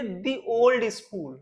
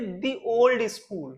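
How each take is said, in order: First: 'The' is pronounced with a long 'ee' sound. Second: The same.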